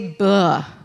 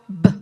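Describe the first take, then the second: First: The b is followed by a short uh vowel. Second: The b is clipped short with no vowel. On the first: The speaker calls it wrong. "don't say buh. Do you hear the uh behind there?" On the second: The speaker calls it right. "you make that staccato b sound"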